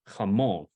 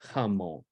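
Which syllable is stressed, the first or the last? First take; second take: last; first. First: The stress is on the last syllable. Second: The stress is on the first syllable. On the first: The speaker calls it right. "whichever syllable it's over gets the stress" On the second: The speaker calls it wrong. "with a emphasis was on the front"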